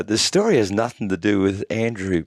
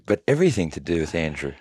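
First: Nothing stressed, set against everything; host to listeners, stressing nothing before the twist. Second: Everything leaned on, quick and softer; stress on everything. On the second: Host to listeners, a quick soft stress on everything. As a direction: land on everything, dropping low and fast. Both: Shown as a demonstration.

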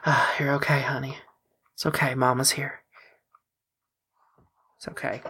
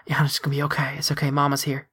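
First: Put-on gentle, hushed comfort to a child; tired new mother. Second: Put-on hushed, gentle comfort to a child; soothing whisper. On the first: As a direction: soothe him like a worn-out mom. Mother holding injured son. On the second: Mother soothing her hurt son.

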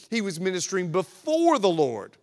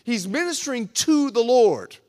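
First: "before" punched on its second syllable; emphatic, weighty "before"; stress on "before". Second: "to" punched loud; loud, emphatic "to" before "the Lord"; stress on "to". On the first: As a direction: make "before" the key word. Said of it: "now I'll emphasize the word "before". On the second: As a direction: hit "to" hard, preaching it out. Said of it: "I emphasize those two words". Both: Shown as a demonstration.

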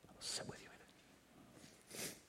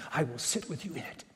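First: Slow breathy whisper; whispered repeat. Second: Said in the usual way. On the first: Shown as a demonstration. Preacher repeating the promise to listeners, whispered slowly. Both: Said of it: "repeated phrase, second whispered".

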